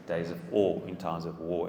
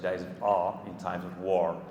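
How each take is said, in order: First: South African accent where awe and war rhyme. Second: Another accent where awe and war differ. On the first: "It rhymes better in South African English" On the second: "as opposed to"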